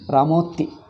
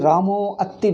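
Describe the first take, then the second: First: The a-sound after Ramo is dropped entirely. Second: The a-sound after Ramo is clearly pronounced.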